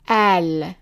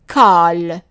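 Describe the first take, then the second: First: The word begins with a glottal stop. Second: The word begins with a plain k sound. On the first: This is the form used in Lebanon and Egyptian cities. "pronounced as an a, for example, in Lebanon or in the cities in Egypt" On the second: This is the form used in a small part of Palestine. "that small part of Palestine"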